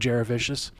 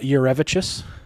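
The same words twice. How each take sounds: First: The surname is said in its commonly used form. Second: The surname is said in its original family form. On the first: This is how the public knows the name. The speaker calls it wrong. "although it's not how you actually pronounce the last name" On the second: This is how the family says the name. The speaker calls it right. "is how you pronounce that"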